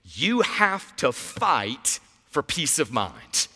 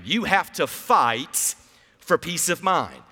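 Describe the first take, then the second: First: Slow sermon line. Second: Slow call and response. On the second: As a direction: say it slowly with me, word by word. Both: Shown as a demonstration. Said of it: "Say that with me".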